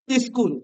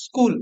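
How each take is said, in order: First: স্কুল with an extra "i" before the s, "iskul"; grandmothers' pronunciation. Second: Said in the usual way. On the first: Shown as a demonstration. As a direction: put a short "ee" in front of স্কুল: "is-kool". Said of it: "এবার তোদের দিদা বা ঠাকুমারা কি বলবে". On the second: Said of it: "যেমন কোন word রয়েছে".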